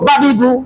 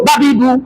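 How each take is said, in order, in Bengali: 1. স্বরগুলো ছোট করে বলা হয়। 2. স্বরগুলো ছোট করে বলা হয়।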